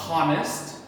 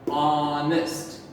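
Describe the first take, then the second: First: The word starts with a sounded h. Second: The word starts with a silent h. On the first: The speaker calls it wrong. "We do not say honest" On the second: The speaker calls it right. "This H becomes silent. We sound the first letter that we hear"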